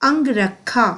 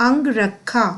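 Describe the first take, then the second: Both takes have the same delivery.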